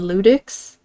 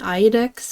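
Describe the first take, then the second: First: The word begins with an L sound. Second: The word begins with a vowel sound. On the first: The speaker calls it right. "people were saying Ludix" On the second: The speaker calls it wrong. "I was saying Iodex because I thought this was an I"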